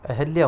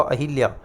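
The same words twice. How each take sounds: First: अहल्या with a short a after the ह; careful अहल्या, "ha" in the middle; correct अहल्या. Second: अहिल्या with a short i after the ह; the common faulty अहिल्या, "hi" in the middle; mispronounced अहिल्या. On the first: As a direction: say अहल्या as "ahalya", no i. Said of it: "शुद्ध शब्द अहल्या होगा". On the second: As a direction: say अहिल्या as "ahilya". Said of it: "गलत होता है". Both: Shown as a demonstration.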